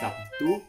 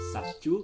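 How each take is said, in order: First: The consonant before t sounds like b. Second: The consonant in the middle sounds like c. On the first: "bukan Sabtu" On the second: "atau Sabcu"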